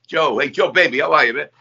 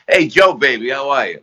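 First: Put-on a touch of North Jersey [name] accent, higher and easy; lightly done Hoboken crooner greeting. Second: Put-on a light North Jersey [name] accent, a bit higher; lightly voiced Hoboken [name] greeting, casual and friendly. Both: [name] greeting a nervous young comic in a mild Hoboken accent. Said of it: "that [name], North Jersey, Hoboken accent".

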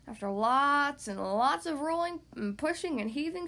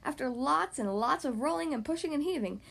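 First: Laboured. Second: Said in the usual way. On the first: A narrator's reading. Squirrel pushing the heavy acorn alone, laboured. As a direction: stretch the words as if heaving a load.

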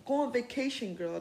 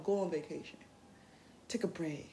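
First: Louder, pushy order; too aggressive. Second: Softer, kind advice; gentle. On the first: Telling people to rest, too aggressively. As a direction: shove the advice at them. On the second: Gently telling people they deserve a break. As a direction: ease them into resting. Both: Shown as a demonstration. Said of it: "Don't be aggressive with it".

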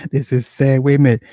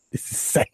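First: Louder, higher, full-voiced outburst; loud exclaim. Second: Breathless whisper to himself; half to himself, no voice behind it; whispered aside. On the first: Streamer laughing at his chat's question, exclaiming loudly. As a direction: throw it out to the whole room. Reacting to his own chat topic. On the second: Streamer shaking his head at his chat, whispering. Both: Real, not acted.

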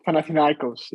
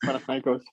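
First: Panathinaikos in an American accent, stress on NAI. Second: Panathinaikos said the Greek way, stress on -kos; Greek pronunciation. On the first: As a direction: Panathinaikos said the American way, pan-a-thin-NAI-kos. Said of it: "in the American accent". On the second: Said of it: "Panathinaikos in the American accent". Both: Shown as a demonstration.

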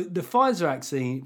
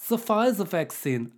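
First: Said in the usual way. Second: Higher, slow mock-German accent. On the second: Host introducing the fancy Pfizer jab in German accent. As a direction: put on a comic German accent, drawn out. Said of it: "giving it a German accent".

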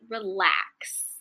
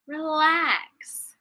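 First: Said in the usual way. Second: Relax lifted high and drawn out, playful; sing-song relax. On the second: Shown as a demonstration. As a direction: float the word Relax up high and let it fall slowly.

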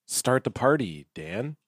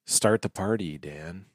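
First: Softer, with less breath than the first try; slow creeping dread. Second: Quiet, hushed dread building to a whispered name; slow creeping dread. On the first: Host's second take at the opener, leaning into creeping dread, quietly. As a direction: hold back the breath and let the dread sit low. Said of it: "yeah, just lean in". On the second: Host reading the show's opener with creeping dread, quiet and breathy. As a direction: let dread creep in as you say it. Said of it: "Okay, slow creeping dread". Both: Shown as a demonstration.

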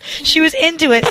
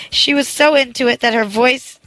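First: Higher, lively second reading; expressive re-read. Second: Stumbling, word-by-word reading; halting reading. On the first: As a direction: read it again with feeling. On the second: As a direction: read it like a beginner reader. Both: Shown as a demonstration. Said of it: "sorry that I read like a five-year-old".

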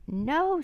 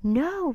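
First: High, drawn swoop of protest; storybook scream, pitched way up; mock scream. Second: High, loud cry of refusal; loud acted outcry; storybook roar. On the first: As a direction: cry out high, without full volume. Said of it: "screamed Annie". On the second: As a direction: roar it out in protest. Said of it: "roared Jack". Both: A narrator's reading.

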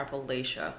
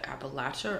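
First: "Appalachia" with third syllable as LAY, ending in sha; "Appalachia" pronounced appa-LAY-sha; Appalachia with long A. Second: "Appalachia" with third syllable as LATCH; "Appalachia" pronounced appa-LATCH-a. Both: Shown as a demonstration. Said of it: "is it Appalachia or Appalachia".

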